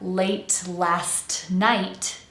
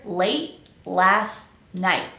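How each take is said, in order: First: The T sounds are fully released. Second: The T sounds are replaced with glottal stops. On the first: "Instead of late last night" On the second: "I'm going to soften all of those T's"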